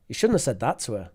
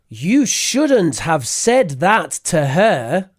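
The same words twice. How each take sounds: First: Words are reduced and linked with weak forms. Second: Every word is fully and separately pronounced. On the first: The speaker calls it right. "the natural way to say it" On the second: The speaker calls it wrong. "That's a lot of over pronunciation"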